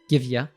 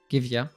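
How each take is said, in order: The two takes are said the same way.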